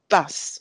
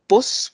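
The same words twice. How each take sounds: First: The vowel is an open A-like sound. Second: The vowel is a rounded O-like sound. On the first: The speaker sounds more educated and prestigious. "with an A type sound" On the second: The speaker sounds broad and northern. "with an O type sound"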